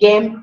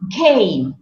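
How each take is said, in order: First: The vowel is short and plain, with no glide. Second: The vowel glides toward an ee sound. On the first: The speaker calls it wrong. "They don't say name, game" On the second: The speaker calls it right. "a native English speaker whose mother tongue is English, they will say name, game"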